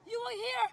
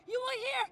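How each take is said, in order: Both takes have the same delivery.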